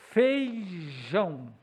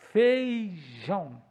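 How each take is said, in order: No difference in how they are said.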